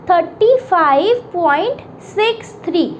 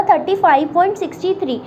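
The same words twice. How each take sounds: First: "six three" read digit by digit after the point; "thirty five point six three", each decimal digit said separately; right reading. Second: "thirty five point sixty three" read with the decimal part as one number, sixty-three; "sixty three" as a single two-digit number after the point; wrong reading. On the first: Teacher shows students the right way, digits said one by one. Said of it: "मैं कैसे पढ़ूँगी इसे". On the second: Teacher shows students the wrong way, reading sixty-three as one number. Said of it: "तो ये गलत है". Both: Shown as a demonstration.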